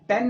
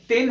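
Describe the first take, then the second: First: "टेन" with an over-open vowel, like tan; wrong pronunciation of ten. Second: "टेन" with a short E as taught; correct pronunciation of ten. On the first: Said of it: "टेन नहीं". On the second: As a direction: say "टेन" as the right model, clean E. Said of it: "ये ए की sound देता है". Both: Shown as a demonstration.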